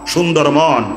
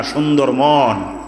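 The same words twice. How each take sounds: First: Said in the usual way. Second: সুন্দর মন stretched out slowly, each word weighed; slow drawn-out emphasis. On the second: Shown as a demonstration. Preacher teaching the crowd, drawing out সুন্দর মন slowly. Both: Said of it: "কিন্তু সুন্দর চেহারা না".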